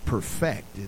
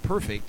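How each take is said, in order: First: The stress is on the second syllable. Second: The stress is on the first syllable. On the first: Someone is doing the perfecting. "there it's perfect" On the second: Something is already flawless. "It's not perfect"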